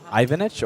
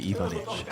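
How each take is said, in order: First: The name is said the English way. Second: The name is said the Croatian way.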